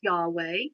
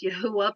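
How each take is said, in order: First: The name is said with two syllables. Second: The name is said with three syllables. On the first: The speaker calls it wrong. "not pronounced Yahweh" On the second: The speaker calls it right. "it is pronounced Yahuwah"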